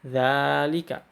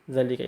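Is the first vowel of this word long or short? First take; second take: long; short. First: The first vowel is long. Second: The first vowel is short. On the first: "diucapkannya seperti zalika" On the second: "bahasanya zalika itu"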